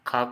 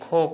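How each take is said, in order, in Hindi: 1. व्यंजन के बाद 'a' स्वर आता है। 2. व्यंजन के बाद 'o' स्वर आता है।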